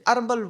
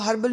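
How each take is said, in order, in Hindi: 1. शब्द की शुरुआत बिना h की आवाज़ के होती है। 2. शब्द की शुरुआत h की आवाज़ से होती है। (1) "अरबल बोलते, एच खा जाते हैं।" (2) "वहां वो हर्बल नहीं बोलते"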